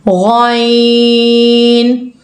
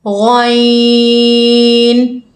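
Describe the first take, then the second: The two takes are said the same way.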